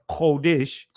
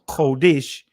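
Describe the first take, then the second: The two takes are said the same way.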